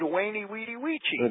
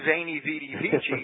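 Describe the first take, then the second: First: Each word begins with a W sound. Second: Each word begins with a V sound. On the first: The speaker calls it right. "He said Waini, Weedy, Weechi" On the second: The speaker calls it wrong. "really didn't say Veni, Vidi, Vici"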